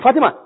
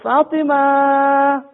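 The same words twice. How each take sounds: First: The name is said in a harsh, rough tone. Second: The name is said in a soft, gentle tone. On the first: The listener reacts coldly. The speaker calls it wrong. "If you say someone in a very rough tone" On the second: The listener responds with a smile. The speaker calls it right. "so that smile"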